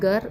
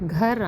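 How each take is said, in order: First: The first consonant is plain, without breathiness. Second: The first consonant is breathy, from the throat. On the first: The speaker calls it wrong. "ഗർ അല്ല" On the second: The speaker calls it right. "ത്രോട്ടിൽ നിന്നാണ് ആ sound വരേണ്ടത്"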